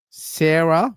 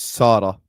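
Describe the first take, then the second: First: "Sarah" said English-style, SAIR-uh; English pronunciation. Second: "Sarah" said Arabic-style, SAA-ra; Arabic pronunciation. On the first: Contrasting the name's pronunciations, English-style "Sarah" as SAIR-uh. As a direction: say "Sarah" with an open "air" vowel. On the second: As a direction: say "Sarah" with a long "ah" vowel. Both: Shown as a demonstration. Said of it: "it's just the pronunciation is different".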